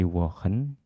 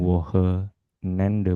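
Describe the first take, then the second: First: The word is broken after Wochen. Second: The word is broken after Woche. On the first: The speaker calls it right. "Tapi Wochenende" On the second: The speaker calls it wrong. "jangan di sini dipenggal ya. Bukan"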